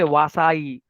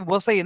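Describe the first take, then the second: First: The first vowel is long. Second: The first vowel is short. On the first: The speaker calls it wrong. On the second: The speaker calls it right.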